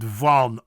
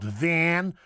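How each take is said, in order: First: Van with open ah, low and loud; correct Dutch vowel. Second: Van like the vehicle; short flat a in Van; English-style Van; wrong English vowel. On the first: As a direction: say Van as "vahn". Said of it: "but Van". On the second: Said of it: "not Van". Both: Shown as a demonstration.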